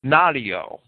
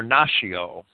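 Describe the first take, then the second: First: Natio said "NAH-tee-oh"; natio, NAH-tee-oh, stressed on the first syllable; Latin pronunciation. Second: Natio said "NAH-shee-oh"; natio, NAH-shee-oh, softened middle consonant; alternative pronunciation. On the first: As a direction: say natio as a Latin word with a t sound. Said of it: "I would think that the ancient Romans pronounced it". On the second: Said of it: "or natio". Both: Shown as a demonstration.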